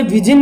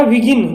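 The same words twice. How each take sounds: First: विजिन with a j in the middle; wrong soft j. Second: विगिन with a hard g in the middle; correct hard g. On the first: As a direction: say विजिन with a j sound. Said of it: "अब इसे विजिन नहीं पढ़ना है". (विजिन ज की आवाज़ के साथ) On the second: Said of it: "ये है अपना विगिन". (विगिन हार्ड ग के साथ) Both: Shown as a demonstration.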